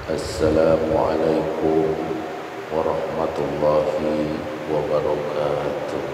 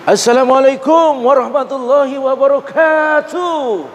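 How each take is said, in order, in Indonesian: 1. Diucapkan dengan lembut dan halus. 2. Diucapkan dengan gaya pembawa acara yang mencolok. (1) "salamnya tuh lembut" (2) "M C organ tunggal"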